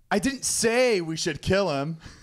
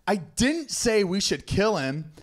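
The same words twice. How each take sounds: First: The stress falls on the word 'say'. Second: The stress falls on the word 'didn't'.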